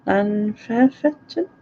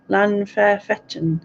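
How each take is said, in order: First: "Llanfairfechan" sounded out slowly as a rising question; unsure pronunciation. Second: Slow, careful attempt at "Llanfairfechan", not sounding Welsh. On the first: Checking own attempt at brother's village, unsure questioning pronunciation. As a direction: say "Llanfairfechan" slowly, doubting it, ending on a rise. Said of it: "That doesn't sound like it's Welsh". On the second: Naming where brother lives, tentative un-Welsh pronunciation. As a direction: sound out "Llanfairfechan" slowly, ending with a fall. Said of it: "by the way I've pronounced it". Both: Real, not acted.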